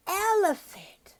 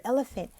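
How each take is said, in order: First: "Elephant" high and drawn out; teaching the word. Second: Said in the usual way. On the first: Shown as a demonstration. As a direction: stretch "Elephant" slowly in a high voice for a child. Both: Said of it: "then I underline the word elephant".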